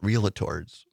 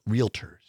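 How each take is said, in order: First: It has an extra middle syllable, three syllables. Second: It has no extra middle syllable, two syllables. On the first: The speaker calls it wrong. "it's not pronounced realtors" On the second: The speaker calls it right. "It's realtors"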